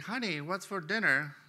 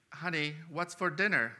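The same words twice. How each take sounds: First: Husband repeating the question from right behind her, a bit higher; lightly raised repeat of the call; mild mock call up close. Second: Husband calling out a little louder, testing her hearing; mild retold scream. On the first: Husband asks his wife again from right behind, mild mock call. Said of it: "right behind her and says". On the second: Husband calls to his wife in the kitchen, mild mock call. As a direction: call toward the kitchen, only mildly raised. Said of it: "it screams".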